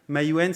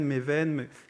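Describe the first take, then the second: First: The name is said with a w sound. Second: The name has a v sound and changed vowel. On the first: The speaker calls it right. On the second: The speaker calls it wrong.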